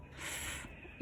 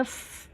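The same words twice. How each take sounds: First: फ as pure unvoiced breathy air, no vowel; फ, only air through the lips; phonic sound. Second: Said in the usual way. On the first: Shown as a demonstration. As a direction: blow out फ softly like a hiss. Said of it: "इस तरीके का". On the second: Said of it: "इसका sound होता है फ".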